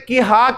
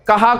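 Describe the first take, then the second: First: The first vowel is a short 'i'. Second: The first vowel is a short 'a'. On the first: The speaker calls it wrong. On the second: The speaker calls it right.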